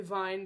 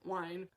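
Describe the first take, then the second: First: The name is pronounced the German way. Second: The name is pronounced the English way. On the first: The speaker calls it wrong. "that's how you say it in German" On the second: The speaker calls it right. "but Wine"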